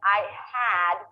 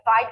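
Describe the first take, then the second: First: The h is kept with a full ah vowel. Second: The h is dropped and the words are contracted. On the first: "instead of saying I had with a pure ah sound" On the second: "I will probably drop the H and the ah will turn into uh"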